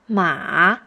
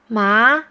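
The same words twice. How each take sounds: First: The pitch goes low, then bounces up. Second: The word is said in the second tone.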